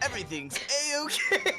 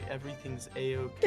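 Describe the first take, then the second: First: It is said in a Sonic impression voice. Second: It is said in a normal voice.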